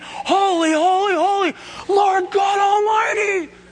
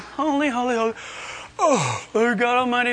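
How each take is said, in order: First: It is said fervently, with full conviction. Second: It is said half-heartedly, without conviction.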